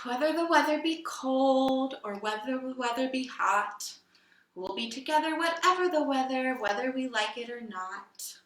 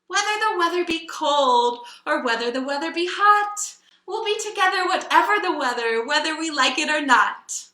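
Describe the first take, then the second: First: It is said in a sad tone. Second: It is said in a loving tone.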